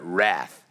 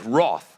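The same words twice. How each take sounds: First: It is said in an American accent. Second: It is said in a non-American accent.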